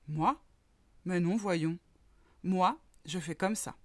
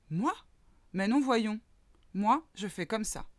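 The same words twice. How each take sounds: First: A cow calmly brushing off the mole. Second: Lightly voiced horse, a touch higher; a horse shrugging off the mole's question. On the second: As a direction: answer as a proud horse, a hint raised. The horse answers the mole. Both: A narrator's reading.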